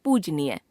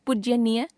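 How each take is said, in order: First: Said in the usual way. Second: पूज्यनीय with an extra y after j; wrong pronunciation. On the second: Shown as a demonstration. Teacher showing a common error, पूज्यनीय with added y. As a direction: slip a य into पूज्यनीय, pitched high. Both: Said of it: "अशुद्ध".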